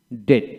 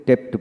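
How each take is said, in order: First: ডেট with no b or p before t; ডেট as "det", straight from vowel to t; silent b. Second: ডেপ্ট with the b sounded as p; ডেপ্ট, silent letter wrongly voiced as a p sound; common mispronunciation. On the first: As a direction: say ডেট, dropping the b entirely. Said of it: "কিন্তু না, ডিটি". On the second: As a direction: say ডেপ্ট with a p before the t. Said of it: "আমরা এখানে ডেপ্ট বলি". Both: Shown as a demonstration.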